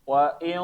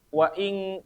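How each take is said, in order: First: The sound comes out through the mouth. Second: The sound comes out through the nose. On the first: The speaker calls it right. "fokus suaranya keluarin dari mulut" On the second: The speaker calls it wrong. "Bukan wa ing wa ing bukan"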